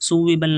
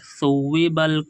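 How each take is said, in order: First: The word begins with a plain s sound. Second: The word begins with a th sound. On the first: The speaker calls it wrong. "सुव्विबल नहीं पढ़ना दोस्तों" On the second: The speaker calls it right. "सा है सा"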